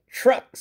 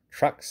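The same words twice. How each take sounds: First: Mild cross grumble on Trucks; crossly. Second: Said in the usual way. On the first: A narrator's reading. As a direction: spit out Trucks, annoyed. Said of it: "said Gordon crossly". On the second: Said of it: "said his driver".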